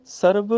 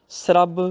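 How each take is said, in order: First: ਸਰਬ said "sar-b", r after the vowel; full r. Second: ਸਰਬ said "srabb", s and r joined; half r. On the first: Teacher repeats the example, ਸਰਬ as "sarab". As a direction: give ਸਰਬ a whole r. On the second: Teacher repeats the contrast, ਸਰਬ as "srabb". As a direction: slide s straight into r in ਸਰਬ. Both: Shown as a demonstration. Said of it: "ਅੱਧਾ ਰਾਰਾ".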